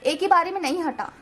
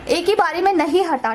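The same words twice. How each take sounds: First: Said in the usual way. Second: Repeated louder with weight on ही; emphatic repeat. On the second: Real, not acted. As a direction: lean hard on ही in एक ही बारी.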